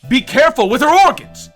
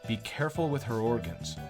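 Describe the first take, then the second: First: It is said in a condescending, talking-down tone. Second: It is said in a plain, neutral tone.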